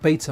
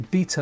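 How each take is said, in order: First: The word is said with an American pronunciation. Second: The word is said with a British pronunciation. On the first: The speaker calls it wrong. "not beta" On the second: The speaker calls it right. "I'm English. I need to say beta"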